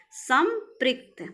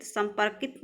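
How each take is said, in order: First: संपृक्त slowly, as sam, prikt; correct form संपृक्त. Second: संपर्कित as sam-par-kit; wrong form संपर्कित. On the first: Teacher corrects students, slow sam-prikt for संपृक्त. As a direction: separate सं from पृक्त in संपृक्त. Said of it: "संपर्कित नहीं". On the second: Teacher rejects a wrong word, sam-par-kit for संपर्कित. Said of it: "नहीं". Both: Shown as a demonstration.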